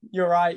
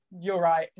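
First: Said in the usual way. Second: A sheepish laugh through the words. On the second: Retold or imitated. Customer admitting his fault, laughing it off. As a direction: concede it while chuckling.

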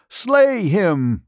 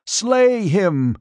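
First: High, loud shrieked order, strained; queen screaming after her escaping prisoner; shrill command again. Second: High, loud shrill order; queen shrieking at her guards to kill; shrill command. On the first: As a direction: shriek it once more, desperate. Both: A narrator's reading. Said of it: "Zaina shrilled".

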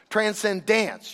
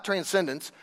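First: Transcendence with the last syllable said like "dance"; ending like dance. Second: Said in the usual way. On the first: Shown as a demonstration. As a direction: stretch transcendence slowly so it ends in dance. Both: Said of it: "you know, like dance".

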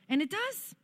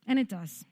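First: High, rising note of surprise; amazed discovery. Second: Said in the usual way. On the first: Real, not acted. Speaker telling church that saying it really helps, high and amazed. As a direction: lift it far up as if amazed. Delighted discovery, then settles to plain.

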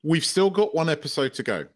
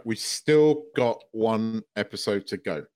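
First: Said in the usual way. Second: Measured, deliberate repeat of the point; slow emphatic reminder. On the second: Real, not acted. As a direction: lower and slow, weighing "one episode".

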